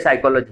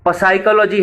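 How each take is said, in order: First: It is said in its normal spoken form. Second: It is sounded out the way it is spelled. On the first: This is how the word is actually read aloud. "लेकिन पढ़ते साइकोलॉजी है" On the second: This is how the word is written. "आप लिखते साइकोलॉजी है"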